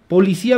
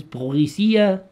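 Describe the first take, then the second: First: Said in the usual way. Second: "policía" drawn out with a mock French accent. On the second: Shown as a demonstration. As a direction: put a fake French pronunciation on "policía". (acento francés fingido) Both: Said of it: "cómo se pronunciaría en francés".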